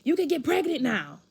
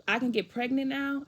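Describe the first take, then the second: First: Imitating an upset dad, high and loud; mock wailing father, pitched up; crying dad. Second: Retold incredulous child's comeback; mad disbelief. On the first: Dad reacting to daughter's first period, high mock wail. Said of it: "He starts crying". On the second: Daughter throwing dad's pregnancy remark back, mad disbelief. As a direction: echo it back indignantly, pitched up. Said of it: "I'll get mad".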